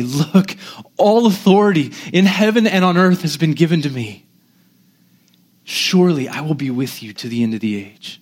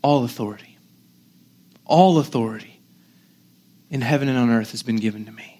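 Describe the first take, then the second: First: Lovingly assuring. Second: Soft, lower, with long pauses; gentle, compassionate. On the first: Preacher as Jesus leaning in to the disciples, lovingly assuring. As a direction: assure them with gentle authority. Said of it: "gently, meekly, compassionately, lovingly say". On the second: Preacher as Jesus to weak, doubting disciples, gentle and compassionate. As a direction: lean in and say it meekly, hushed. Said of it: "he's gentle, he's compassionate". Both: Acted.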